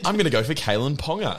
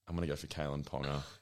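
First: It is said in a bright, excited tone. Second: It is said in a flat, defeated tone.

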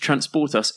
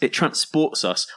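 First: It is said at normal loudness and speed. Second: It is said louder and more slowly.

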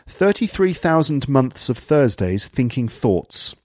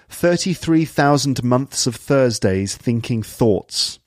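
First: The th sounds are pronounced fully. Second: The th sounds are pronounced fully.

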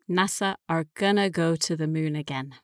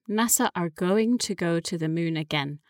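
First: The words going to are reduced to gonna. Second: The words going to are said fully.

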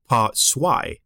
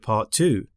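First: It is said in a German accent. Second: It is said in a plain English accent.

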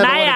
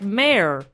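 First: The word is said in a non-American way. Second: The word is said in an American way. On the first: The speaker calls it wrong. "You weren't saying it in an American way" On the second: The speaker calls it right. "Say it like mayor"

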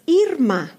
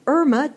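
First: The first vowel is an 'ee' sound. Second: The first vowel is not an 'ee' sound. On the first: This is the name as the parents gave it. "the name that my parents gave me is Irma" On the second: This is how the spelling looks to some readers. "it looks like Irma to some of you. And that is one pronunciation of this name"

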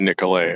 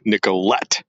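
First: The final T is silent, French style. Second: The final T is clearly pronounced. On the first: This is how it should be said. "it should be Nicolet" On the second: This is how locals say it. "It's a hard T"

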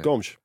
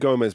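First: It is said with a European Portuguese pronunciation. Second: It is said with a Brazilian Portuguese pronunciation. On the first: "if he was Portuguese, how would they say it?" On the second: "it'd be Gomes because he's Brazilian"

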